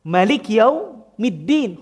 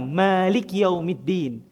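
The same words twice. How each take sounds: First: The vowel after the first m is short. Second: The vowel after the first m is long. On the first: "huruf mimnya pendek, tidak panjang sebagaimana yang pertama" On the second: "ketika kita baca dengan huruf mim yang panjang"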